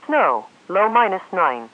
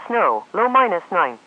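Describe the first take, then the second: No difference in how they are said.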